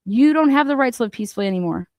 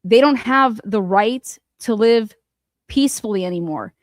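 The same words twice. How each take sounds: First: Quick scornful throwaway of the quote; rapid sneering echo; fast mocking repeat. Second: Slow, weighty reading of the quote; deliberate, heavy quoting of his words. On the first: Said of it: "you have no idea what that even means". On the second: Retold or imitated. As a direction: lay out each word slowly and gravely. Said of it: "Turtle Boy saying it himself".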